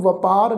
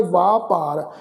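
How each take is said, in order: First: ਵਪਾਰ with a short first vowel, the wrong way; wrong pronunciation. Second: ਵਾਪਾਰ with a long aa in the first syllable; correct pronunciation. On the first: Teacher warns students against saying ਵਪਾਰ. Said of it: "ਇਹਨੂੰ ਵਪਾਰ ਨਹੀਂ ਉਚਾਰਨ ਕਰਨਾ". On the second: Teacher gives the sangat the correct ਵਾਪਾਰ. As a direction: stretch the aa in ਵਾਪਾਰ. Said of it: "ਇਸਦਾ ਪਾਠ ਉਚਾਰਨ ਕਰਾਂਗੇ ਵਾਪਾਰ". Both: Shown as a demonstration.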